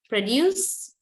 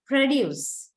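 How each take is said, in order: First: "produce" with the second syllable heavier; light start, stress the DUCE of "produce"; verb stress on second syllable. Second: "Produce" with the first syllable heavier; noun stress on first syllable. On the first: Teacher shows students the verb, second-syllable stress on "produce". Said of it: "the second syllable is much more heavier". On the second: Teacher shows students the noun, first-syllable stress on "Produce". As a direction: stress the PRO of "Produce", lighter ending. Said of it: "much more heavier than the second part". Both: Shown as a demonstration.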